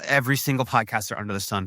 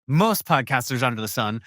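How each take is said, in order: First: "every" stressed as a sweeping overstatement; broad claim, "every" pushed forward. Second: Self-correction with weight on "most"; corrected stress. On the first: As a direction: lean on "every" before catching yourself. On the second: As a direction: hit "most" to fix the claim. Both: Real, not acted. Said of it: "f-, well".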